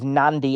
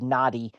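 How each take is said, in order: First: An n sound comes before the d. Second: No n sound comes before the d. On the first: The speaker calls it right. "The correct pronunciation is Nandi, as if it were spelled N A N D I" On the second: The speaker calls it wrong. "for the sake of ChatGPT, I said Nadi"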